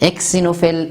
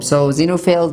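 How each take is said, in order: First: The word begins with a ks sound. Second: The word begins with a z sound. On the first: The speaker calls it wrong. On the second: The speaker calls it right.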